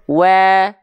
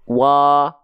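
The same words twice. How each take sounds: First: Said with the mouth open while smiling; thinner vowel. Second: Said with the mouth open, not smiling; fuller vowel. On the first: The speaker calls it right. "Yang sambil senyum" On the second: The speaker calls it wrong. "Yang tanpa senyum"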